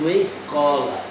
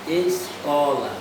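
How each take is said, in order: Both takes have the same delivery.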